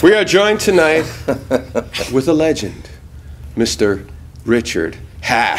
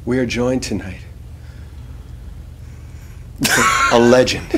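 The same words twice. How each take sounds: First: Building to a grand low introduction; dramatic announcer. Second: Much lower, softer, heavy with feeling; deep emotional delivery. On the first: Host introducing the guest, dramatic announcer build. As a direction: present the legend with gravitas. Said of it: "give that a slightly different line rating". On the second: Host redoing the intro on request, deep and emotional. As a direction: reach down deep and mean it. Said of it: "I want you to reach down deep". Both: Acted.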